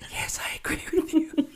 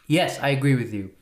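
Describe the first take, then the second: First: It is said at a quieter volume. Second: It is said at a louder volume.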